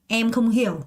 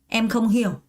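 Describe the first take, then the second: The two takes are said the same way.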